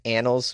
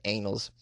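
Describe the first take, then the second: First: Said in the usual way. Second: "Annals" said as it looks, like "anals"; misread pronunciation. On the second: Shown as a demonstration. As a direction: say "Annals" with a long A, as in "anal". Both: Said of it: "but it looks like Annals".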